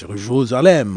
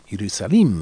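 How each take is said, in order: First: The name is pronounced the French way. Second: The name is pronounced the Russian way. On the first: "in French" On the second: "in Russian and Greek"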